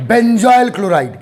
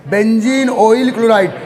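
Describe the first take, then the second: First: Benzoyl said slowly as one blended word; fuse बेंजीन and ऑयल into benzoyl, drawn out; merged name. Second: बेंजीन and ऑयल said as two separate words before chloride; parts kept separate. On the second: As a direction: keep बेंजीन apart from ऑयल, not yet merged. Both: Shown as a demonstration. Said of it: "उसके पीछे का logic बता रहा हूं".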